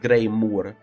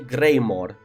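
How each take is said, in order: First: The last syllable sounds like 'moor'. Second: The last syllable sounds like 'more'. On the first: The speaker calls it wrong. "not Greymoor" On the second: The speaker calls it right. "because you say Greymore"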